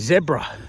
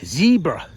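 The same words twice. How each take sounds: First: It is said with an Australian accent. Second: It is said with an American accent. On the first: "We say zebra" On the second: "how the Americans say Z, zebra"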